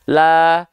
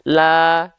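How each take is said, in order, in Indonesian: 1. Vokal diucapkan dengan mulut hanya terbuka. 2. Vokal diucapkan dengan mulut hanya terbuka.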